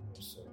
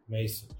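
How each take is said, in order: First: The name is said quietly. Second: The name is said loudly.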